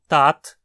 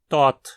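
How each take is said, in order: First: The vowel is an open 'ah' sound. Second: The vowel is a rounded 'oh' sound. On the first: This is the variant the speaker personally uses. "existem falantes que dizem tat" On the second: This is the variant some other speakers use. "e outros que dizem tot"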